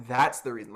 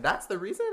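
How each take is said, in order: First: Said in the usual way. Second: "That's the reason?" rising high on "reason"; disbelieving, pitch climbing at the end; incredulous question. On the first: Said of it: "I didn't say that". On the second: Retold or imitated. Singer silently questioning the judge's excuse, rising in disbelief. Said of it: "in my mind, I was thinking".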